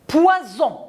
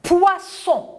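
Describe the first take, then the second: First: Poison with a voiced z, pitched high; z sound. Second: Poisson with a hissed s, pitched high; s sound. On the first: Teacher setting Poison against poisson. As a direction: buzz the z in Poison. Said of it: "un seul S". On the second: Teacher setting Poisson against poison. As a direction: hiss the ss in Poisson. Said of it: "deux S". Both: Shown as a demonstration.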